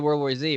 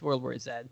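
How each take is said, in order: First: The last letter is said the American way, "zee". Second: The last letter is said the British way, "zed".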